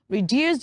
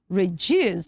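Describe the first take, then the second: First: The d is said as a plain d. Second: The d is said like a j sound. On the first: The speaker calls it wrong. "you don't say reduce" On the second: The speaker calls it right. "you say reduce"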